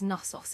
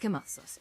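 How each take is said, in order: First: The word begins with an N sound, K silent. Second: The word begins with an audible K sound. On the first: The speaker calls it wrong. "other people think it's it's Knossos. It's not" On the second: The speaker calls it right. "you do pronounce the K on Knossos"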